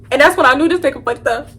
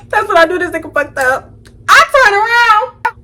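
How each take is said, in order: First: Said in the usual way. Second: Laughing. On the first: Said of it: "repeat line". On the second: Shown as a demonstration.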